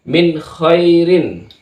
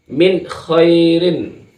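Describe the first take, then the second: First: The n sound is held only briefly. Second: The same.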